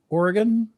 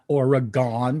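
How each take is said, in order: First: It is said the way locals say it. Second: It is said the way New Jerseyans say it. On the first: The speaker calls it right. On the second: The speaker calls it wrong.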